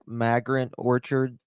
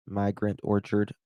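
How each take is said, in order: First: Migrant with a flat Southern a, like mag-rant. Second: Migrant said my-grant, with a long i; careful, corrected Migrant as my-grant; standard Migrant. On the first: Asking a coworker about Bakersfield orchards, Migrant as mag-rant. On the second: Correcting her own accent on air, Migrant as my-grant. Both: Shown as a demonstration. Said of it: "my Southern just went through".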